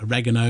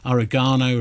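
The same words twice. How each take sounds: First: It is said in an American accent. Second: It is said in a British accent.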